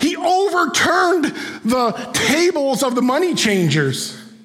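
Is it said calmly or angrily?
angrily. It is said with angry force.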